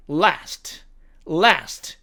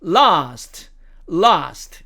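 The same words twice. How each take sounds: First: American "last", front a; American demo of "last"; American accent. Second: British "last" with long ah; British demo of "last"; British accent. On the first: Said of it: "미국식 발음으로는". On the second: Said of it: "영국식 발음으로 가면". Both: Shown as a demonstration.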